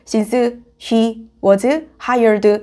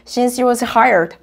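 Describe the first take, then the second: First: The phrase is said slowly with each word clear. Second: The phrase is said quickly with reduced sounds. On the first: "이렇게 말해주지 않으면 들리지 않아요" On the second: "아무리 빨리 말해도 이게 들려요"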